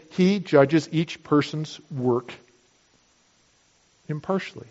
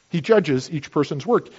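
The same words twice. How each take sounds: First: Preacher to congregation, quoting the verse slowly and solemnly; slow solemn quote. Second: Said in the usual way. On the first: Shown as a demonstration. Preacher to congregation, slow weighty verse quote. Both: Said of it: "to say".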